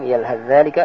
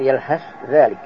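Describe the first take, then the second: First: The th sound merges into the following dh. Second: The th sound is pronounced clearly and separately. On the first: "dibaca idgham"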